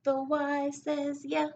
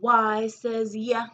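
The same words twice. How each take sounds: First: "yeah" sung higher, slowly; sing-song repeat. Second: "yeah" drawn out slow and loud; loud slow letter sound. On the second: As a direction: call out the sound of "Y" slowly. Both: Shown as a demonstration. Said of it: "Every letter makes a sound".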